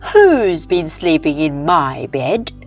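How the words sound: It is a medium, middle-pitched voice.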